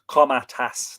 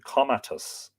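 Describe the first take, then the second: First: The last syllable sounds like 'tas'. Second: The last syllable sounds like 'tus'. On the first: The speaker calls it right. "Comatas, not Comatus" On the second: The speaker calls it wrong. "not Comatus"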